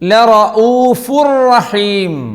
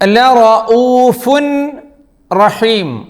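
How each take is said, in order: First: The n merges into a doubled r sound. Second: The n is pronounced separately before the r. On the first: The speaker calls it right. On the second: The speaker calls it wrong.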